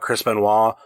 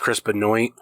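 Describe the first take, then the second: First: The name is said in its usual way. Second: The name is said in an altered way. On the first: "he talks about Chris Benoit" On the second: "but he says Chris Benoit or something"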